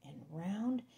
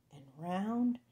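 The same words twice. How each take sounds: The two takes are said the same way.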